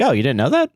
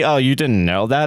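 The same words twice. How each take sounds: First: It sounds like genuine, friendly surprise. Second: It sounds condescending and judgmental. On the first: The speaker is simply surprised the listener didn't know. The speaker calls it right. "I'm like, ... I do think there's a little bit of like inflection" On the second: The listener is looked down on for not knowing. The speaker calls it wrong. "I don't say"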